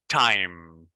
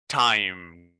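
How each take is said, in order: Both takes have the same delivery.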